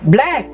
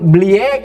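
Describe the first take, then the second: First: The word starts with a plain b sound. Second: The b is said like the letter name bee. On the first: The speaker calls it right. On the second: The speaker calls it wrong.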